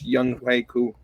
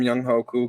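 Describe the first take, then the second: First: The middle syllable is said like 'kway'. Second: The middle syllable is said like 'hoe'. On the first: It is the name's actual pronunciation. The speaker calls it right. "but it's Young Quay Koo" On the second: It follows the spelling of the name. The speaker calls it wrong. "I call him Young Ho Koo because that's how it's spelled"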